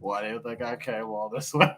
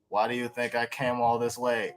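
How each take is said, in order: First: It is said forcefully, with strong emotion. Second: It is said flatly, with no emotion. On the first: The speaker calls it right. "Say it with your chest" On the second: The speaker calls it wrong. "he did that with no emotion"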